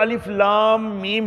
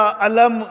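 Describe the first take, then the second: First: Each letter name is spoken separately. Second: The letters are joined into one word, alam. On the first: The speaker calls it right. "अलिफ को अलग पढ़ना है, लाम को अलग पढ़ना है, मीम को अलग पढ़ना है" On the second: The speaker calls it wrong. "या अलम ये नहीं पढ़ सकते"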